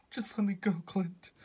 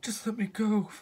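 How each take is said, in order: First: Breathy pleading whisper. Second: Said in the usual way. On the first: Acted. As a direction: whisper it as you let go. Natasha hanging from cliff.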